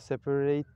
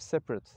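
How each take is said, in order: First: The last syllable is stressed. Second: The last syllable is not stressed. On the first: It is used as a verb. "fiillerde sondaki hece genelde vurgulanıyor" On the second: It is used as an adjective. "sıfat olan e, separate'ı görüyoruz"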